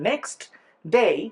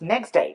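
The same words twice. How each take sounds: First: The t sound in next is clearly heard. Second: The t sound in next is dropped.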